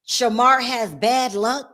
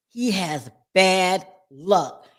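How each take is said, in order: First: Shamar stressed, slow and deliberate; slow emphasis. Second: Very slow, lower, he stressed; slow low repeat. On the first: Telling viewers about Shamar, slow emphatic stress. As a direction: draw out Shamar has bad luck. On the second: Confirming to viewers, very slow low emphasis. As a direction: drag it out heavily. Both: Shown as a demonstration. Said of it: "when I tell you guys".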